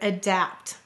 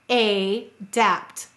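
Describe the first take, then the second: First: The first vowel is a weak 'uh' and the second syllable is stressed. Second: The first vowel is a clear 'ay' and both syllables are stressed equally. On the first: This is the everyday spoken form of the word. "Notice the first syllable, is lazy. It's a schwa sound" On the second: This form is said slowly to help with spelling. "Notice we will equally stress the vowels for say to spell"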